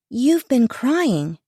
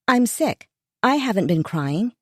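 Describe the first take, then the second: First: Slow, suspicious accusation. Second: Weak, unconvincing denial. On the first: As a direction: say it slowly with narrowed eyes. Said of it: "Aubrey narrowed her eyes". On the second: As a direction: deny it without conviction. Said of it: "The conviction behind my words was gone". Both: Acted.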